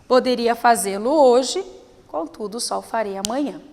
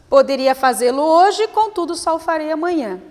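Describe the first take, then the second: First: A long pause comes before 'contudo'. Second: A short pause comes before 'contudo'. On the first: "E o uso do ponto e vírgula" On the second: "Se fosse apenas vírgula"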